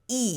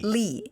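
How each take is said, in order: First: The name starts with a vowel sound. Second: The name starts with an L sound. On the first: This is the original form of the surname. "I go by [name], which is the right pronunciation" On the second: This is the anglicized form of the surname. "he went by Adrian Lee"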